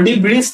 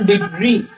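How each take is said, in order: First: The word ends with an audible s sound. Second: The word ends without any s sound. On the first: The speaker calls it wrong. "ডিব্রিস না" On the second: The speaker calls it right. "উচ্চারণ ডিব্রি, লাস্টের এসটা উচ্চারণ হবে না"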